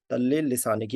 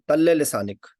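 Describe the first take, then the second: First: Said in the usual way. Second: "तल्ले लिसानिक" louder, stress on तल्ले, falling at the end; emphatic model phrase. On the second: Shown as a demonstration. Teacher first calls out the Arabic phrase loudly to the class. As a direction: punch out "तल्ले लिसानिक" so students catch it. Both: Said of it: "तल्ले लिसानिक कहते हैं ज़बान को".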